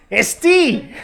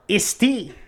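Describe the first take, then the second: First: Isti much higher and louder, cracking up; laughing punchline. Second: Isti said as one word, higher; teacher sounding out Isti. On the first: Teacher cracking up, Isti much higher and louder. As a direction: blurt Isti through laughter. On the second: Teacher sounding out Isti, higher, as one word. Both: Retold or imitated. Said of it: "And he starts laughing".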